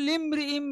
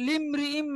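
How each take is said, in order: The two takes are said the same way.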